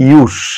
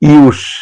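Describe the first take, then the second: First: The word ends with a hissing s sound. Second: The word ends with a hissing s sound.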